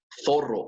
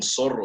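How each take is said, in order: First: It begins with a th sound, tongue at teeth. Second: It begins with a hissing s sound. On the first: "poniendo la lengua con los dientes" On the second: "no dicen zorro"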